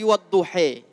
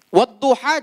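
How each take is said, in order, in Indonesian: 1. Vokal akhirnya adalah bunyi 'e'. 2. Vokal akhirnya adalah bunyi 'a' terbuka. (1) "bisanya ngomong e" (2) "nggak bisa ngomong a"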